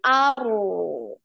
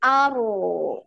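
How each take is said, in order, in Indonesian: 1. R-nya getar sekali, lalu dialirkan. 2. R-nya getar sekali, lalu dialirkan.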